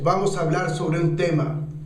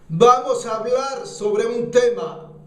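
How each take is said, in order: First: The voice is at an ordinary speaking level. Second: The voice is raised and pushed out strongly. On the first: "estás hablando" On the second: "Entonces la impulsas"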